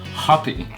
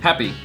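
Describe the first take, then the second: First: The first vowel sounds like 'hot'. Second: The first vowel sounds like 'cat'.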